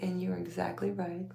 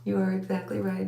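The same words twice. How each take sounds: First: Said in the usual way. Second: "You are" in full, louder and deliberate; emphatic agreement. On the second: Retold or imitated. Wife agreeing with husband she is exactly right, emphatically. Same reply repeated for emphasis.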